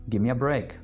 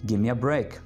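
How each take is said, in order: No difference in how they are said.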